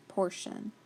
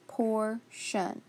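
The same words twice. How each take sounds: First: Said in the usual way. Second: "portion" slowly split into por and shun; sounded out by syllable. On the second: Shown as a demonstration. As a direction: break "portion" in two, with a gap. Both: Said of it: "to say p".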